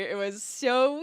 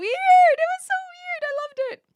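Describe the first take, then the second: First: Said in the usual way. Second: Very high, loud squeal; squealed delight. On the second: Real, not acted. Streamer squealing about the weird Pleco clip, high and loud. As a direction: shriek it up high with glee.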